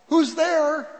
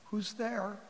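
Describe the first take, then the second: First: Higher, louder call; raised voice, demanding who is there. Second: Soft, meek question; small, hushed and tentative; sheepish voice. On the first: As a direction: call out through a closed door. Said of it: "Prince Albert called out". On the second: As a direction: ask timidly from behind a door. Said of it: "this sheepish voice coming from the apartment". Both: Acted.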